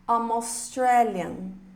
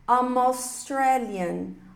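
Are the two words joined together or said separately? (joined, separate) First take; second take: joined; joined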